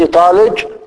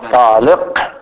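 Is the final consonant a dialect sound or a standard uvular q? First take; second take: dialect; uvular. First: The final consonant uses a colloquial dialect sound. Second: The final consonant is a standard uvular q. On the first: The speaker calls it wrong. "مثلا لو قال من لهجة العامية" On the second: The speaker calls it right. "لا بد من إخراج الحروف من مخارجها"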